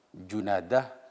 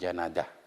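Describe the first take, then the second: First: The first vowel is an u sound. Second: The first vowel is an a sound. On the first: The speaker calls it right. "dibaca dhammah" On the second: The speaker calls it wrong. "bukan Janadah"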